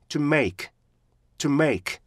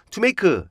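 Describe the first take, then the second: First: "to make" with short "to" and strong, falling "make"; two clean beats, "to make"; correct "to make". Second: "to make" run together with an added 크 ending; Korean-style "투메이크"; wrong "to make". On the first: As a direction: punch "make" after a quick stopped "to". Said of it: "make를 정확히 읽을 수가 있는데". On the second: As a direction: mimic Korean learner's "to make", ending in "keu". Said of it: "여기서 to라고 하잖아요". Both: Shown as a demonstration.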